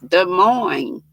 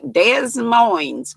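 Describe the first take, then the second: First: The S sounds at the ends are silent. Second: The S sounds at the ends are pronounced. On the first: The speaker calls it right. "you don't pronounce the S's" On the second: The speaker calls it wrong. "which looks like Des Moines"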